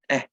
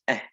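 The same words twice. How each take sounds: First: The vowel is soft, faint and breathy. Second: The vowel is soft, faint and breathy.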